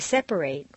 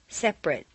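First: The final syllable has a full 'ate' vowel. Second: The final syllable has a reduced vowel. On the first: It is used as a verb. "it's a full A sound" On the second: It is used as a noun or adjective. "completely reduced"

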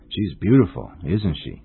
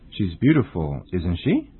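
First: The pitch falls at the end. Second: The pitch rises at the end. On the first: The speaker expects the listener to agree. "you must use a falling intonation" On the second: The speaker does not know the answer. "you should use a rising intonation"

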